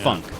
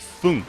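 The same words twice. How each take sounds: First: It is said with an American pronunciation. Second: It is said with a German pronunciation.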